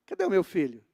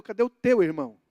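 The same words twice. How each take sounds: First: Wrong version, laughing. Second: Teu pressed firm and loud, the right wording; preacher correcting with "Cadê o teu irmão?", teu stressed. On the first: Pretend. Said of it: "Ele não falou assim". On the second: Retold or imitated. Preacher gives God's true question with teu stressed. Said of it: "Não, ele falou".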